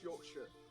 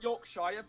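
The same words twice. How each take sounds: First: The ending is reduced to a short sher. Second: The ending sounds like the full word shire. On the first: This is how it is actually said. "but it's pronounced Yorkshire" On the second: This is how it is written. "it's spelled Yorkshire"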